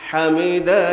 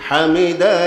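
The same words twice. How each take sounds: Both takes have the same delivery.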